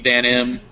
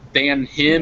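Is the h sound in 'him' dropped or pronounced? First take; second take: dropped; pronounced. First: The h at the start of him is dropped. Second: The h at the start of him is pronounced. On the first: "when we speak fast, uh, you often elide those first H's" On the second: "so if it was uh"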